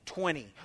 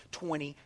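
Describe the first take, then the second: No difference in how they are said.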